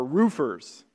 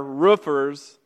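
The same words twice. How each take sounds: First: ROOFERS with the long oo of "food"; long vowel roofers. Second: ROOFERS with the short oo of "book"; short vowel roofers. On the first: Pastor naming the other camp, long-vowel ROOFERS. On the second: Pastor contrasting two camps, short-vowel ROOFERS. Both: Shown as a demonstration. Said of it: "some people say it roof".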